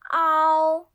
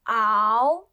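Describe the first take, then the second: First: The pitch stays high and level. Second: The pitch rises from middle to high.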